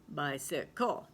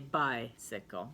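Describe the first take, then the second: First: The stress is on the last syllable. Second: The stress is on the first syllable. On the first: The speaker calls it wrong. "if you were going to pronounce it at the end" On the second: The speaker calls it right. "we just say bicycle"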